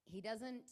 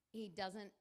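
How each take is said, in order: Both takes have the same delivery.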